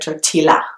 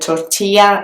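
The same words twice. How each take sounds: First: The double L is said as an L sound. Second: The double L is said as a Y sound. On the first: The speaker calls it wrong. "instead of" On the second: The speaker calls it right. "It makes the sound y"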